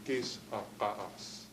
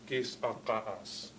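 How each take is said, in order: No difference in how they are said.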